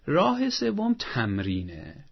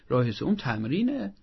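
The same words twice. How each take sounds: First: Slow announcement. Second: Said in the usual way. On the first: Real, not acted. Announcing the third method.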